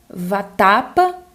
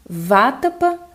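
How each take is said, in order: Both takes have the same delivery.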